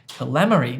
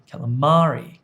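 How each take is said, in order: First: The stress falls on a syllable other than 'ma'. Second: The stress falls on the 'ma' syllable. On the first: The speaker calls it wrong. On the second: The speaker calls it right.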